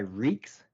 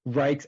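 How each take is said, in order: First: The vowel sounds like 'ee'. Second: The vowel sounds like 'eye'. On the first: One branch of the family uses this form. "a subsect of my family that goes by Reeks" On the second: This is how most people say the name. "it's so often wrong"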